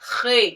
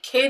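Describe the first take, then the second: First: It begins with a raspy throat friction sound. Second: It begins with a plain breathy k sound. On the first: The speaker calls it right. "खे की आवाज" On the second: The speaker calls it wrong. "हम ये नहीं कहेंगे"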